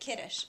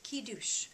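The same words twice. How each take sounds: First: It is pronounced the English way. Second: It is pronounced the Hebrew way. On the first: "in English we would say kiddush" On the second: "we should learn how to pronounce them in Hebrew too"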